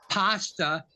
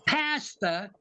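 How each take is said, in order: First: Pasta with an open ah, "pahsta"; normal pronunciation. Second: Pasta with a short flat a, as in cat; mocked English pronunciation. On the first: Shown as a demonstration. Explaining the normal idiom to colleagues, pasta said "pahsta". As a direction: say "pasta" as PAH-stuh. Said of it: "not pronounce in the normal English idiom". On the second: Mocking how the English talk, Pasta said "PASS-tuh". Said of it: "They always talk, say".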